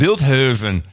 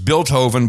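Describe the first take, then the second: First: It is said in an uppity, posh way. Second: It is said in a plain, ordinary way. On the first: "a very posh pronunciation" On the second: "It's Bilthoven"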